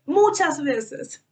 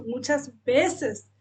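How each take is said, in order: First: Muchas veces louder and very slow, stress on muchas; emphatic repeat. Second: Said in the usual way. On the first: Real, not acted. Preacher insisting the Lord cried with her, slow and emphatic. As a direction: lean hard into "muchas". Repeated phrase, drawn out loud.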